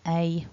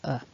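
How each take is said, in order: First: The word has a full strong vowel. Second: The word has a reduced weak vowel. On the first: "Strong is a" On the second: "weak is uh"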